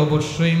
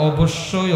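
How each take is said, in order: Both takes have the same delivery.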